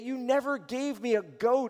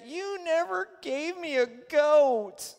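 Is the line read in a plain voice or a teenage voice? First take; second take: plain; teenage. First: It is read in the speaker's ordinary voice. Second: It is said in a put-on, whiny teenage voice.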